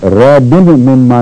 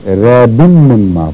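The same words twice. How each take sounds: First: "ریب مما" with the final n of raibin sounded apart; wrong separate n. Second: "ریب مما" as raibim-mimma, n merged into a held m; correct merge. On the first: Teacher showing what not to read, "ریب مما" unmerged, slow. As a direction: break "ریب مما" after a clear n, slowly. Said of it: "نہیں پڑھنا". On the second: Teacher giving correct reading, "ریب مما" merged, slow. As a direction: run "ریب مما" together on a long m, slowly. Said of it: "پڑھنا ہے". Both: Shown as a demonstration.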